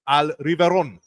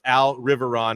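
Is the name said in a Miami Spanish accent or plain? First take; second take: Miami; plain. First: The name is said with a Miami Spanish accent. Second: The name is said in a plain English accent.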